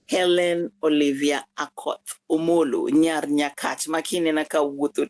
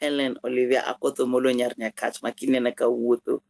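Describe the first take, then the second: First: The name is said slowly. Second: The name is said at normal speed.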